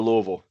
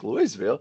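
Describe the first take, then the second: First: It is said the local Kentucky way. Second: It is said the Colorado way. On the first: This is how people near the Kentucky office say it. "we call it Louisville" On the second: This is how the town in Colorado is said. "that's the one in Colorado"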